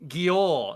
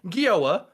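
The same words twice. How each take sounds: First: "Gior" ending in a short clipped or sound, no extra vowel; louder, higher "Gior" with a firm fall; correct Gior. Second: "Gioa" said with a clear long o-a ending, raised and loud; loud, high mock of "Gioa" ending in oh-ah; American ex's Gioa. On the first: Retold or imitated. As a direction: insist on "Gior" cut off after the or. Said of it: "It's like". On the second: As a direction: mimic the ex saying "Gioa" with a rounded oh-ah finish. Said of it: "And she would say".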